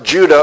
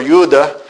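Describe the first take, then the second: First: Said in the usual way. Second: Judah with a Y sound at the start, Yudah; Hebrew pronunciation. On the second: Shown as a demonstration. Teacher showing his class how Hebrew says it, Judah pronounced Yudah. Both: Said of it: "is how it's pronounced in Hebrew".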